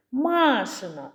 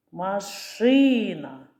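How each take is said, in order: First: «Машина» slowly, first а stressed and held; drawn-out stressed vowel. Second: «Машина» very slowly, stressed и held long; drawn-out stressed vowel. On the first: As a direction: stretch the first а: MAAA-shyna in «Машина». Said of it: "який голосний тягнеться?". (протяжне наголошене перше «а» в слові «Машина») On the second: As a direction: stretch the и: ma-SHYYY-na in «Машина». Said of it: "Який голосний тягнеться?". (протяжне наголошене «и» в слові «Машина») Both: Shown as a demonstration.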